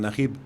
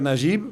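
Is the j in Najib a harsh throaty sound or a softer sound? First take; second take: harsh throaty; softer. First: The j is a harsh, throaty sound. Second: The j is a softer, non-throaty sound. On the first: This is how Arabic speakers say it. "los árabes lo pronuncian Najib. La pronuncian la J como, como ustedes" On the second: This is how it is said in France. "en mi país se pronuncia Najib"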